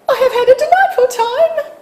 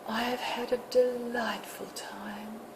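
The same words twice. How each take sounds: First: It sounds like a frivolous woman at tea. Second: It sounds like one of two lovers.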